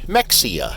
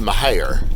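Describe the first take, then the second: First: The name is pronounced the way visitors say it. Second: The name is pronounced the way locals say it. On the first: An outsider is saying the name. "when people come to visit, they'll call it Mexia" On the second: A local is saying the name. "the locals pronounce it"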